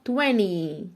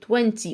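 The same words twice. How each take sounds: First: The middle t sound is dropped. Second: The middle t sound is clearly pronounced. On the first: "وفي ناس بتنطقها twenty" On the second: "ركز قوي في مقطع تي"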